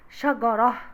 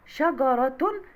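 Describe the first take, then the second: First: Slow شجرة ending on a breathed "-ah"; pausal h ending. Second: Slow شجرة ending in a sounded "-tun"; connected t ending. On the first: Teacher showing a stop on the word, شجرة read "shagarah". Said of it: "لو هقف هقول". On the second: Teacher showing the word mid-sentence, شجرة read "shagaratun". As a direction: pronounce شجرة as "shagaratun", the t heard. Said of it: "هتبقى شجرة بتاء مربوطة". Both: Shown as a demonstration.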